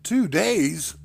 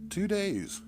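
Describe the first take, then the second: First: Higher, louder startled cry of disbelief; shocked exclamation. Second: A gentle smiling answer. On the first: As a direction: blurt it out in shock. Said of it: "I exclaimed". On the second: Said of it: "she smiled". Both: Acted.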